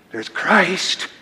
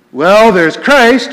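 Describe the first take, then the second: First: Soft, hushed stage whisper; mock whisper. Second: Louder, higher, drawn-out announcement; full voice. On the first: Shown as a demonstration. Preacher mimicking how Rome must whisper Christ, hushed. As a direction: say it as if it must not be heard. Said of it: "you have to whisper that". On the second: Acted. Preacher naming Christ in Rome's doctrine, full voice. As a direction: say it out loud, slowly and firmly. First take before the hushed repeat.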